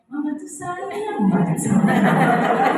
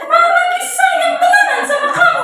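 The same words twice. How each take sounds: First: It is said warmly and sincerely. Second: It is said irritably and insincerely.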